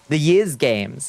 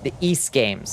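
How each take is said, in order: First: The name does not rhyme with geese. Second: The name rhymes with geese, like east. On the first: "I've never been entirely clear how you say" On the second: "Geese without the G"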